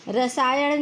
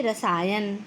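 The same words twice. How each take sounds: First: रसायन ending in a curled ṇ; retroflex error. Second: रसायन ending in plain dental n; correct n. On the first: Teacher citing the error, रसायन with retroflex ending. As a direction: say रसायन with the tongue curled back on the last sound. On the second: Teacher correcting the error, रसायन with plain n. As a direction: say रसायन with a clean tongue-tip n. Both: Shown as a demonstration. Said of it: "नहीं".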